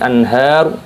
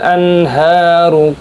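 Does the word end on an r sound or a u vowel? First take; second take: r sound; u vowel. First: The word ends sharply on the r sound. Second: The word ends with a short u vowel. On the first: The reading stops at this word. "ketika berhenti anhar" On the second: The reading continues into the next word. "ketika sambung"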